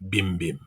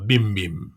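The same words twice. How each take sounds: First: Softer, lower echo of "bim bim"; fading echo. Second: Soft chiming "bim bim", falling; bell chime. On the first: Narrator echoing "bim bim" softer as the bell fades. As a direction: let "bim bim" fade away like a dying bell. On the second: Narrator chiming "bim bim" like a bell. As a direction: ring out the first "bim bim" like a small bell. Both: A narrator's reading.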